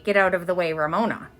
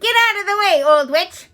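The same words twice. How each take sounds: First: Said in the usual way. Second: High, loud rude brush-off; a boy yelling at a witch. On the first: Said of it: "He did not say". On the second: A narrator's reading. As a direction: shove past with a yell. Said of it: "Eric R yelled".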